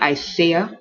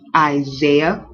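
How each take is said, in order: First: The middle consonant sounds like an S. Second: The middle consonant sounds like a Z. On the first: The speaker calls it wrong. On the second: The speaker calls it right. "it almost sounds like a Z"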